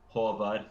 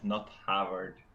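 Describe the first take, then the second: First: The first vowel sounds like an 'o'. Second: The first vowel sounds like an 'a'. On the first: The speaker calls it right. "double A is pronounced O" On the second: The speaker calls it wrong.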